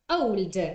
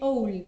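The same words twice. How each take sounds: First: The final D sound is clearly pronounced. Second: The final D sound is dropped. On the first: "old with a D at the end" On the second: "in connected speech... just like that"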